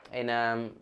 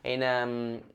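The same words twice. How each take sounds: The two takes are said the same way.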